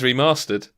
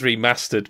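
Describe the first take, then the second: First: It is said in a posh southern English accent. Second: It is said in a northern English accent. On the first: "for me, ... because I'm a posh southerner" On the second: "because you're a northerner"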